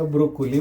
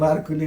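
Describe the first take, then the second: First: The word is said as 'bro-ko-li'. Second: The word is said as 'bar-ku-li'. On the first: This is what the vegetable is properly called. The speaker calls it right. "त्याला ब्रोकोली म्हणतात" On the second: This is how a local shopkeeper says it. The speaker calls it wrong. "मला बारकुली नाही"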